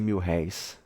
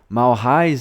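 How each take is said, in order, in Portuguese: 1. A primeira vogal é um 'i' fechado normal. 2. A primeira vogal é bem aberta, como em 'mal'. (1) "em vez de mil réis" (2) "com um abrimento afetado de vogais"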